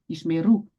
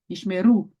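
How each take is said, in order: First: The stress is on the last syllable. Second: The stress is on the last syllable.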